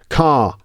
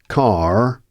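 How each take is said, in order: First: The final R sound is not pronounced. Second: The final R sound is clearly pronounced. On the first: "In R P, that R at the end of car isn't pronounced" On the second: "with a more rounded R sound that you might hear in some accents"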